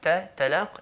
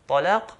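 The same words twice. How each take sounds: First: The first consonant is a plain t. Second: The first consonant is a heavy t. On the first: The day of meeting. The speaker calls it right. "If someone changed the ta" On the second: Divorce. The speaker calls it wrong. "just making the ta heavier"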